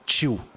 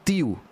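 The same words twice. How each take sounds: First: The t sounds like a 'ch' sound. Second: The t is a plain, clean t sound. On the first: This is how people in the speaker's Brazilian region say it. "A gente fala tio" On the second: This is how speakers from Portugal say it. "os portugueses, eles falam tio"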